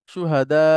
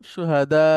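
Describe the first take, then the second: Both takes have the same delivery.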